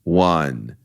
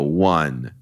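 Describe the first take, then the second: Both takes have the same delivery.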